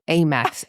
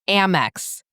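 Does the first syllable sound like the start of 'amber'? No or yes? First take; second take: no; yes. First: The first syllable does not sound like 'amber'. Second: The first syllable sounds like the start of 'amber'. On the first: The speaker calls it wrong. "It's not pronounced Amex" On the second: The speaker calls it right. "it's Amex, like amber"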